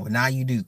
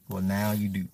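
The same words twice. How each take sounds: First: Said in the usual way. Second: Lower, softer deadpan repeat; low aside. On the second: Real, not acted. Streamer answering a surprised listener, low aside. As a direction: drop it down, softly matter-of-fact.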